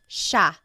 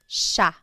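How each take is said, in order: The two takes are said the same way.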